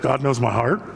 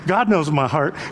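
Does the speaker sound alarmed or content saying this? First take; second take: alarmed; content. First: It sounds startled and alarmed, like a question. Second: It sounds calm, content and reassured. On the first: Being known is frightening. "Wow. That scared the devil" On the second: Being known is a comfort. "that's so comforting"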